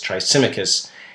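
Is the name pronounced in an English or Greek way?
English. The name is pronounced the English way. "the English tongue says Thrasymachus"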